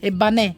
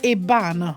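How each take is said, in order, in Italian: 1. L'accento è sulla seconda sillaba. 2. L'accento è sulla prima sillaba. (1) "abbiamo messo l'accento sulla seconda" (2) "si dice Eban"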